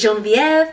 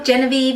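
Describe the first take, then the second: First: The name is pronounced with French sounds. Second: The name is pronounced with English sounds. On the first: "the French way is" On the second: "is probably how we pronounce it"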